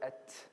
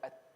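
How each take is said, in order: First: The final t ends with a strong hiss. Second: The final t stops with no hiss. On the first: "I don't say at. That's too much" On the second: "That's completely stopping"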